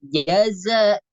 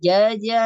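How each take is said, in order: First: The second consonant is a hissing z. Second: The second consonant sounds like j. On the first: The speaker calls it right. "tapi jaza, za, ya, sifat sofirnya" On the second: The speaker calls it wrong. "bukan jaya atau jaja"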